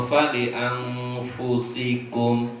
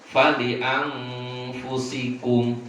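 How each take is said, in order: Both takes have the same delivery.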